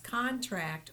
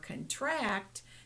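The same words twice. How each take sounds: First: It has the stress pattern of the noun. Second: It has the stress pattern of the verb. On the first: It is used as a noun. "whether it's a being used as a noun" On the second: It is used as a verb. "or a verb"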